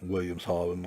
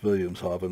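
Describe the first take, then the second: First: The name begins with a W sound. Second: The name begins with a V sound. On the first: The speaker calls it wrong. "not Williamshaven, like you'd think it would be" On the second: The speaker calls it right. "pronounced with a V"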